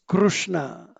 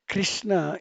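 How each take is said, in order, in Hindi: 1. पहले अक्षर में 'ru' स्वर ध्वनि है। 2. पहले अक्षर में 'ri' स्वर ध्वनि है। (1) "it is Krushna" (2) "That is not Krishna"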